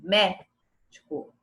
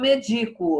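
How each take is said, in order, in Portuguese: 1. A tônica cai na primeira sílaba. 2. A tônica cai em uma sílaba posterior. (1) "Então a sílaba tônica é um mé" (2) "é assim que fala? Não"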